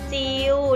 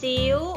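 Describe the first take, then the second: First: The word is said with a mid level tone. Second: The word is said with a high tone. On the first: "เสียงสามัญหลักคำว่าจิ๋วคืออะไรคะเริ่มจากจิว" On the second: "ถ้าเราลองเติมไม้ตรีลงไปจะเป็นจิ๋ว"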